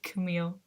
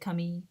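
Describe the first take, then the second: First: The name is said with an English pronunciation. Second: The name is said with a French pronunciation. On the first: "they don't say my name like Camille" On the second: "It's more like Camille because the name itself is French"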